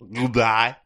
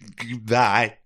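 First: The voice sounds muffled, like a mouthful of tissue. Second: The voice has a shudder running through it. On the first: "that real, like, cotton mouth sound" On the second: "You could have a shudder in it"

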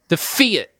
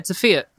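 First: The F sound is hit hard. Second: No sound is given extra force. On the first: "you're really punching that F" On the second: "most people Fiat. Aren't emphasizing a letter"

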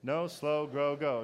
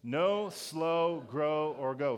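First: It is said fast. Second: It is said at normal speed.

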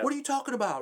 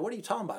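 First: It is said in an angry, explosive tone. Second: It is said in a calm, denying tone.

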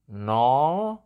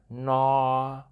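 First: The pitch rises through the word. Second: The pitch stays level throughout the word. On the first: "which you can hear it goes up" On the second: "it's pretty flat"

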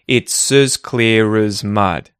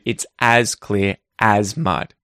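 First: The word 'as' has a reduced schwa vowel. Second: The word 'as' has a full a vowel. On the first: This is how it sounds in quick connected speech. "you'll get a schwa vowel sound, and so instead you're going to hear" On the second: This is the careful pronunciation of each word. "instead of"

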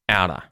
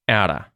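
First: The final V sound is dropped. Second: The final V sound is dropped.

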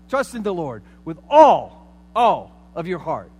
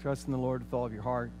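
First: It is said loudly, almost shouted. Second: It is said in a calm, restrained way.

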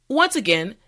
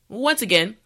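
The two takes are said the same way.

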